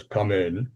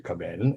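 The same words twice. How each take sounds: First: Low, soft deep voice through the door; deep voice from inside. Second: Much lower and softer, a deep resonant call; deep-voiced professor calling him in. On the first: Retold or imitated. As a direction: answer like a deep-voiced professor behind a door. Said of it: "this voice inside goes". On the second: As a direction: drop the voice low and soft for the professor. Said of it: "this voice was deep".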